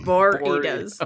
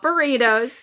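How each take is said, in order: First: The first syllable sounds like 'boar'. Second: The first syllable sounds like 'bur'. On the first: The chips are shaped like little wild hogs. The speaker calls it right. "they're Doritos, but they're shaped like little boars" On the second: The ordinary wrapped food. The speaker calls it wrong. "Not burritos"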